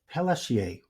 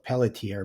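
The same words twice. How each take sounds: First: The name is pronounced in a non-English style. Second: The name is pronounced in an anglicized style. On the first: The speaker calls it right. "I think that's how you pronounce it" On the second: The speaker calls it wrong. "some Anglos butcher it and call it"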